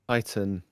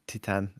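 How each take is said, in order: First: The name is said with an English pronunciation. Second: The name is said with a Polish pronunciation.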